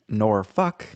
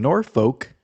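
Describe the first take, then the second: First: The ending sounds like the swear word 'fuck'. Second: The ending is said in the ordinary soft way.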